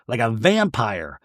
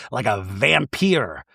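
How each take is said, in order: First: Said in the usual way. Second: "vampire" said as "vam-PEER"; playful mispronunciation. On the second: Shown as a demonstration. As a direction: end "vampire" with a rhyme for "peer". Says the word two ways.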